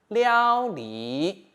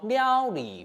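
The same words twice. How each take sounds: First: The second syllable keeps its basic tone. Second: The second syllable shifts to a changed tone.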